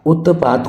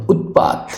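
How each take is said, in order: First: उत्पात with "a" after the t; wrong inserted vowel. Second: उत्पात with t straight into p; correct stopped t. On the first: Teacher rejects this उत्पात, vowel slipped in after t. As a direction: say उत्पात wrongly as "utta-paat". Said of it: "उत्पात कुछ नहीं होता". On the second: Teacher gives the correct उत्पात, no vowel after t. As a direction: say उत्पात as "ut-paat". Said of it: "ये बिल्कुल correct है". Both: Shown as a demonstration.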